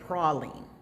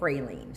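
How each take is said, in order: First: The word is pronounced the Louisiana way. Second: The word is pronounced the Texas way. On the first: This is how people in Louisiana say it. "if you are in Louisiana, they say praline" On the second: This is how people in Texas and nearby states say it. "if you're in Texas, if you're in Mississippi, if you're in Georgia"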